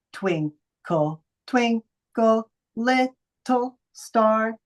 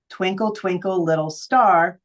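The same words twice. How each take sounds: First: Slow sung nursery rhyme; singing Twinkle Twinkle to show the syllables. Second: Said in the usual way. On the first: Shown as a demonstration. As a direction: sing it out slowly, syllable by syllable. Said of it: "versus singing it". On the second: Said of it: "let's say you read".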